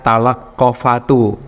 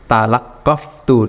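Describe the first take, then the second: First: A short vowel is heard between f and t. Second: The f runs straight into t, no vowel. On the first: The speaker calls it wrong. "tidak dibaca" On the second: The speaker calls it right.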